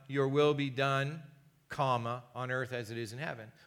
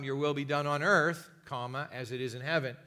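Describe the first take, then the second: First: The pause comes after 'be done'. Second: The pause comes after 'on earth'.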